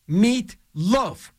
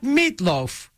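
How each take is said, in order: First: The name is split into two separate words. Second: The name is run together as one word. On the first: The speaker calls it right. "He did not want the Meatloafs together" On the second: The speaker calls it wrong. "Not Meatloaf"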